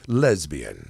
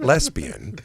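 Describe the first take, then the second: First: The middle consonant is a buzzing z sound. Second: The middle consonant is a hissing s sound. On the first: The speaker calls it right. "whenever you have a, a, a Z sound" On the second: The speaker calls it wrong. "it's not lesbian"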